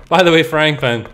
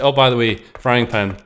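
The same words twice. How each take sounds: First: Higher, louder mock announcement; insistent game reminder. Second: Offhand mock announcement; casual game aside. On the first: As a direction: pipe up brightly with the reminder. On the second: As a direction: toss it in like an afterthought. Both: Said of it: "it's like".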